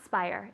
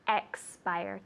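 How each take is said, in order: First: The opening 'ex' syllable is left out. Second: The opening 'ex' syllable is clearly pronounced. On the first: The speaker calls it wrong. "It's not spire" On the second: The speaker calls it right. "it's expire, two syllables"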